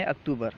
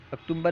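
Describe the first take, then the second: First: اکتوبر said "aktoobar", long oo straight into b; no M sound. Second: اکتوبر said "aktumbar", with an m before b; wrongly added M. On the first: Teacher correcting October for students, no M sound. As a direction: leave the m out of اکتوبر. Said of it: "میم نہیں ہے". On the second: Teacher quoting the mistaken October, with added M. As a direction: slip an m into اکتوبر. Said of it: "اکتوبر نہیں بلکہ". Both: Shown as a demonstration.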